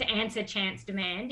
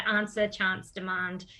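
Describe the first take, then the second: First: "answer, chance, demand" with the short vowel of "cat"; short A pronunciation. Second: "answer, chance, demand" with long "ah" vowels; broad A pronunciation. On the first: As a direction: say "answer, chance, demand" as an-ser, chance, de-mand with front "a". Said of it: "mixed in with". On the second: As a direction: say "answer, chance, demand" as ahn-ser, chahnce, de-mahnd. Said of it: "mixed in with answer, chance, demand". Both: Shown as a demonstration.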